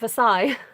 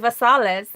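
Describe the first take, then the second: First: The name is said the French way. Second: The name is said the local Southern way. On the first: "Not Versailles" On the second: "So do you say, you know, our stamp set, very Versailles?"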